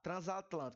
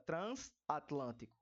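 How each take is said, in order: First: The middle consonant is a voiced z sound. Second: The middle consonant is a voiceless s sound. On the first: The speaker calls it right. "aqui a gente fala o z" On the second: The speaker calls it wrong. "A gente não fala transatlântico"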